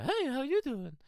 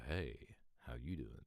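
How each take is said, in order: First: Much higher, light pre-break voice; high boyish voice. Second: Deep voice. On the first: Telling a teen how he used to sound, high-pitched. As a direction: squeak it up like a kid before puberty. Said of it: "So rather than being like the". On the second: Telling a teen how he sounds now, low and deep. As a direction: lower and softer, dropped voice. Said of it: "you're now like the". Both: Retold or imitated.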